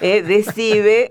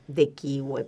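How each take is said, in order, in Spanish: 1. La C no se pronuncia como sonido k. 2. La C se pronuncia como sonido k.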